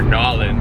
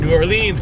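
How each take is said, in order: First: The name is squeezed into a short local form. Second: The name is said in its first, rejected form. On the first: "if you're a true true local" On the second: "It's not New Orleans"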